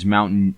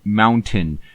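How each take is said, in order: First: The T in the middle is dropped. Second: The T in the middle is clearly pronounced. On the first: The speaker calls it right. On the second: The speaker calls it wrong.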